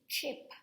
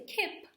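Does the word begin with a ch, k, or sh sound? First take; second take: ch; k. First: The word begins with a ch sound. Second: The word begins with a k sound. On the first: The speaker calls it right. "We say chip" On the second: The speaker calls it wrong. "We don't say kip"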